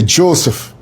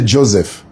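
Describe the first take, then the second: First: "Joseph" with a sharp s, TCHO-sef; Irish Joseph. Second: Said in the usual way. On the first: Shown as a demonstration. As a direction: say "Joseph" the Irish way, hissed s not z. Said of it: "that's the way the Irish say it". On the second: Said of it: "I don't say Joseph".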